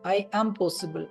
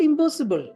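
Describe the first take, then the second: First: It is split with a pause before possible. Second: It is said as one unbroken word. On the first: I can do it. "ആ വാക്കൊന്ന് നിർത്തി നിർത്തി വായിക്കും" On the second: It cannot be done. "ഒറ്റ നോട്ടത്തിൽ"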